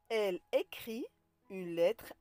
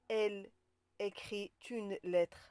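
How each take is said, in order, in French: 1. Aucun son t ne relie écrit à une. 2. Un son t relie écrit à une. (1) "on ne fait pas de liaison" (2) "On ne dit pas"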